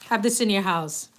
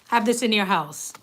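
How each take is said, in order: Both takes have the same delivery.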